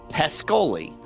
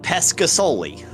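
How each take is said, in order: First: The middle S sound is left out. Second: The middle S sound is clearly pronounced. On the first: The speaker calls it right. "it's actually pronounced Pescoli" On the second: The speaker calls it wrong. "it's spelled Pescasoli"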